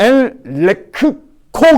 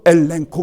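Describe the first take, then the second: First: The middle cluster is said as a k sound. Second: The middle cluster is said as an ng sound. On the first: This follows the spelling with two gammas. The speaker calls it wrong. "엘레크코 그래야 되는데" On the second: This is how the word is actually pronounced. The speaker calls it right. "그러지 않고 엘렌코 그래"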